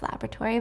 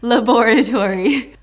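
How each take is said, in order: First: It is said with an American pronunciation. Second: It is said with a British pronunciation.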